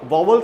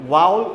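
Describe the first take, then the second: The two takes are said the same way.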